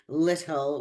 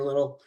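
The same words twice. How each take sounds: First: The middle T is fully pronounced. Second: The middle T is replaced by another sound. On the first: "Instead of saying little" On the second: "we substitute um, the middle position T sound"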